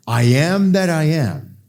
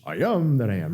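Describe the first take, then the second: First: Said in the usual way. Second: Quick, throwaway cartoon-sailor impression; Popeye. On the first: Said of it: "he's using the same lingua franca". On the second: Preacher joking about spinach, Popeye impression. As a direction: toss it off as a Popeye quote. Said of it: "Popeye, spinach".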